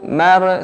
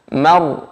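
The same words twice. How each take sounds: First: The r is heavy but bounces, with loose lips. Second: The r is heavy and steady, with rounded lips. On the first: The speaker calls it wrong. "bisa cenderung untuk memantul" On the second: The speaker calls it right. "dengan membulatkan bibir"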